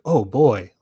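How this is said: It is said in an excited way.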